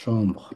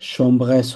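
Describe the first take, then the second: First: The final s is not pronounced. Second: The final s is pronounced. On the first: The speaker calls it right. "এস উচ্চারণ হবে না" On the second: The speaker calls it wrong. "chambres হবে না"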